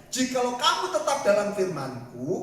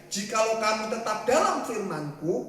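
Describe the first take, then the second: The two takes are said the same way.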